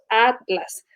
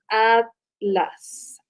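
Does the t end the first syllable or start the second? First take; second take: second syllable; first syllable. First: The t opens the second syllable: a-tlas. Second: The t closes the first syllable: at-las. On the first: This is how Mexican speakers say it. "nosotros Atlas" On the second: This is how speakers from Spain say it. "Hacen una separación de como de los dos segmentos"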